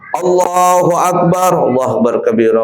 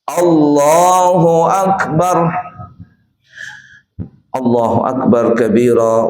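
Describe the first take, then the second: First: The phrases run together without a breath. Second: A breath pause follows the first Allahu Akbar.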